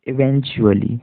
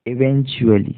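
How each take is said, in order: Both takes have the same delivery.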